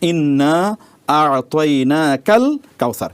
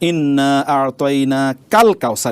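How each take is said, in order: First: The syllable 'ka' runs on from the word before. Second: The syllable 'ka' runs into the word after. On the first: We have given you the abundance. The speaker calls it right. "এই জন্য পড়তে হবে কি" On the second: We have given something like the abundance. The speaker calls it wrong. "আপনি এভাবে পড়বেন না"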